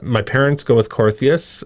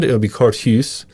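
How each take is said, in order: First: The name is said with anglicized pronunciation. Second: The name is said with Dutch pronunciation. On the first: This is the form the family adopted after others mangled it. "my parents go with" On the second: This is how it is said in the home country. "in Holland, it would be"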